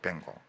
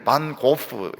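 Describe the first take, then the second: First: The name runs together and ends in 'go'. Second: The name ends with a final 'f' sound. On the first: The speaker calls it right. "영어로는... 뱅고 이렇게 부르더라고요" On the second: The speaker calls it wrong. "고호를 고프 이렇게 하는데"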